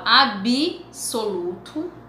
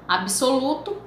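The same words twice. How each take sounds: First: An extra vowel follows the b. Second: The b joins s with no vowel between. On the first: This is an informal spoken variant. The speaker calls it wrong. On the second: This is the standard educated form. The speaker calls it right.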